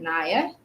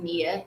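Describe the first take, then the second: First: The name is said with a 'Naya' sound. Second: The name is said the way it is spelled. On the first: "but I pronounce it Naya" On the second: "I'm gonna say Nia because it's spelled Nia"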